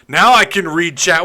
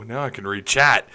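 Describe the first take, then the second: First: "Now I can read chat" said higher and louder with relief; louder, pleased. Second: Said in the usual way. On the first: Shown as a demonstration. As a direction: cheerfully announce it.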